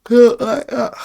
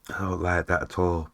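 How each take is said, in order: First: Much higher and louder, pulled long by a yawn; yawn-stretched "I don't like that"; yawning through it. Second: Said in the usual way. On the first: Real, not acted. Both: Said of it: "Why am I yawning so much?".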